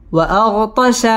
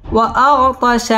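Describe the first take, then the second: First: Said in the usual way. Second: Recited. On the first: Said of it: "spelling builds the word". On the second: Shown as a demonstration. Teacher turns the spelled word into recitation. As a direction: stretch وأغطش into recitation tune. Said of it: "word repeated as recited".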